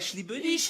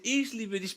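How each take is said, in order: First: The first word sounds like French 'je'. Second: The first word is said as German 'ich'. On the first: The speaker calls it wrong. "pas ich liebe dich ... t'as dit je liebe dich" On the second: The speaker calls it right. "c'est ich liebe dich"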